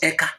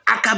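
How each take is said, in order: First: The word begins with an 'e' vowel. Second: The word begins with an 'a' vowel. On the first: This is the Ebonyi dialect form. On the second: This is the general dialect form.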